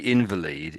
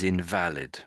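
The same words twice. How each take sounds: First: The stress is on the first syllable. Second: The stress is on the second syllable. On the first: "If you say invalid, it means there's some sort of an injury" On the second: Not correct or no longer usable. "the other way of saying it is invalid"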